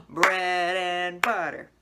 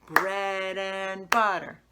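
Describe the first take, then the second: The two takes are said the same way.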